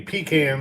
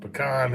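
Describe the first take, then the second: First: The first syllable sounds like 'pee'. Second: The first syllable sounds like 'puh'. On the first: It names a can a trucker relieves himself in. The speaker calls it wrong. "pecan is something a truck driver uses going down the road" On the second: It names the nut tree, its wood or the pie. The speaker calls it right. "Pecan is the wood or the tree or the pie"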